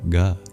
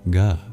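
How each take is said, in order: The two takes are said the same way.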